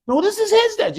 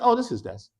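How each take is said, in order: First: His punched high; stress on his. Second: Said in the usual way. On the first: Shown as a demonstration. Teacher contrasting flat and stressed his desk. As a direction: lean on his, pointing. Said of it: "You're emphasizing, you're pointing". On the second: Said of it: "I don't mean".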